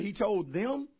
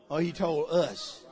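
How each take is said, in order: First: Them said with a rise, questioning; stress on them. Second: Slow, leaning on "he told us" with a drop; stress on us. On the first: Congregation asked to question it, stress on them. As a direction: lean on "them" as if asking. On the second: Congregation turning it back on themselves, stress on us. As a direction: land on "us", slowly. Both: Shown as a demonstration. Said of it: "you all say".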